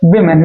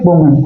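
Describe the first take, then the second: First: The first syllable sounds like 'wi'. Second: The first syllable sounds like 'wu'. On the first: The speaker calls it right. "इसका pronunciation क्या होगा? विमेन" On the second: The speaker calls it wrong. "ना कि वुमेन"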